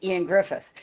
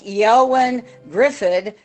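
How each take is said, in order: First: The first name sounds like 'Ian'. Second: The first name sounds like 'Eowyn'. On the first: This is how the name is actually pronounced. The speaker calls it right. "when you actually look at the pronunciation" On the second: This is how the name looks in writing. The speaker calls it wrong. "it looked like"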